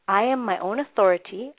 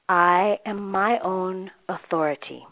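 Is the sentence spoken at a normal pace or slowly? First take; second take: normal; slowly. First: It is spoken at a normal pace. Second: It is spoken slowly and deliberately.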